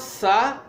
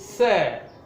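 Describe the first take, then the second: First: The vowel is short. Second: The vowel is long. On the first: The speaker calls it wrong. "It is not sir" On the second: The speaker calls it right. "the long S sound"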